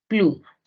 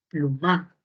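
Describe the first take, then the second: First: The stress is on the first syllable. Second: The stress is on the last syllable. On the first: It is the real word for feather. The speaker calls it right. "el acento de plu en pluma" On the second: It is not a word with any meaning. The speaker calls it wrong. "Si yo muevo la sílaba tónica"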